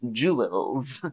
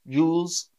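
First: The word is said as two syllables. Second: The word is said as one syllable. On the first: This is an old-fashioned way. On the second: This is the modern British way. "So I say it as one syllable"

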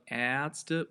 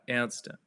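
First: The first vowel is long. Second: The first vowel is short. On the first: The speaker calls it wrong. "It's not Ärzte" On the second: The speaker calls it right. "but Ärzte, It's a short pronunciation"

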